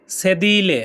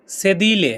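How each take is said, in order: Both takes have the same delivery.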